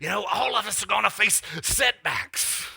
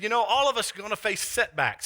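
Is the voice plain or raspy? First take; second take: raspy; plain. First: It is said in the preacher's raspy voice. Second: It is said in a plain voice.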